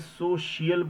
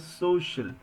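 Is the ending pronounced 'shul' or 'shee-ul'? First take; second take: shee-ul; shul. First: The ending is split into 'shee-ul' syllables. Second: The ending is one short 'shul' syllable. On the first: The speaker calls it wrong. "क्या आप इसे सोशियल बोलते हैं? नहीं ना" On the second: The speaker calls it right. "आप बोलते हैं सोशल"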